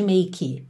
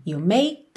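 First: "make" as "may-kee"; added final vowel. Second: "make" cut off right at the k; stop on K. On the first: Teacher shows what to avoid, extra vowel on the end. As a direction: add a Brazilian "ee" after the k of "make". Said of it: "nada de make". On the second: Teacher shows the correct ending, stopped on K. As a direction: end "You make" on the k, no vowel after. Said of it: "já paro no K". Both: Shown as a demonstration.

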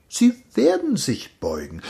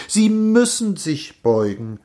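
First: WERDEN pitched high, then falling; stress on werden. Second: MÜSSEN pressed, somewhat less high; insist, leaning on the word "müssen"; stress on müssen. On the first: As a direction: foretell it, lifting "werden" sharply. Master predicts, shifting the stressed verb. (Betonung auf „werden“, hoch angesetzt) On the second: Master insists, shifting the stressed verb. (Betonung auf „müssen“, nachdrücklich) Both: Acted.

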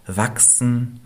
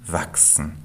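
First: Wachsen lifted up with yearning; rising longing. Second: Wachsen dropped low and much softer; fading echo. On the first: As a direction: stretch wachsen upward, a wishful rise. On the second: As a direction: let the second wachsen die away like a sigh. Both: A narrator's reading. Tree longing to grow.

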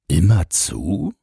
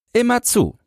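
First: "Immer zu" slow, rising at the end as a question. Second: Put-on very high child's voice, falling at the end; answering boy. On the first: Man asks about the boy's watch, questioning "Immer zu". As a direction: ask "Immer zu" drawn out, lifting "zu". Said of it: "fragte der Mann". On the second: Boy confirms he always guards, firm answer. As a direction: confirm it firmly as a little boy. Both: A narrator's reading.

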